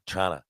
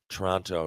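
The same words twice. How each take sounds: First: It is squeezed into two syllables, like Trana. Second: All three syllables are pronounced fully. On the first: The speaker calls it right. "T R A N A" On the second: The speaker calls it wrong. "not even Toronto"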